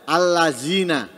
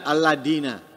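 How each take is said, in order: First: The middle consonant is a z sound. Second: The middle consonant is a d sound. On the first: "Atau diganti za" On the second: "diganti dal"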